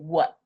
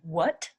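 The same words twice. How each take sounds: First: The final T sound is stopped, not released. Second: The final T sound is clearly released. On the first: "I'm not making a t sound" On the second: "Instead of saying what"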